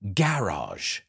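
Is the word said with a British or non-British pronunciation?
British. It is said with a British pronunciation. "they say garage"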